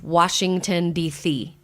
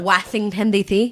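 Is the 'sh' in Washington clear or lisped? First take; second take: clear; lisped. First: The sh is clear; only the s is lisped. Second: The sh is lisped along with the s. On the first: The speaker calls it right. "I had to learn to not lisp on the S H's, but just on the S's" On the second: The speaker calls it wrong. "if you turn to your S H's, you can't understand a damn word"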